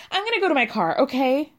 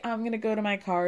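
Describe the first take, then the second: First: Mock-heated, higher and a bit louder; angry threat. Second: Said in the usual way. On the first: Girlfriend storming off to the car, heated mock threat. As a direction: fire it off like a storming-out ultimatum. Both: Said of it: "But it's never like".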